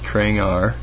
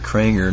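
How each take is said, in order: First: The last syllable is said with an 'ar' sound. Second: The last syllable is said with an 'er' sound. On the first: The speaker calls it wrong. "not Krangar" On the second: The speaker calls it right. "it's pronounced like the E-R"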